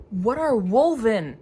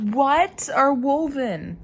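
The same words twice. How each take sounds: First: Slow, louder puzzled question; drawn-out baffled ask; odd sing-song question. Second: Slow, louder, higher baffled ask; strange drawn-out question. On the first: Reading alone, a strange loud drawn-out question. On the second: Asking herself mid-book, loud drawn-out question. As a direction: stretch the puzzled question out. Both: Real, not acted. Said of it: "why did I say it like that".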